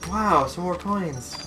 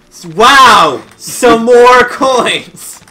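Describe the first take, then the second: First: It sounds flat and unenthused. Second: It sounds loud and aggressive.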